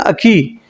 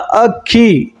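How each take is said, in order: First: The k sound is short and single. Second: The k sound is held long and doubled. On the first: The speaker calls it wrong. "अखी उच्चारण में अटपटा सा लगेगा" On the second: The speaker calls it right. "आधा क और पूरा क और छोटी ई की मात्रा"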